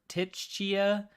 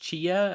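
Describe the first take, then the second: First: The name starts with a T sound. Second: The name starts without a T sound. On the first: "Do you pronounce the T?" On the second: "Is it just Chia"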